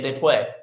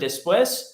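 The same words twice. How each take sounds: First: The s sound is dropped, Spanish local style. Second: The s sounds are fully pronounced.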